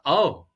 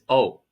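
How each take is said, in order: First: It is said with surprised emotion. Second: It is said flatly, without emotion.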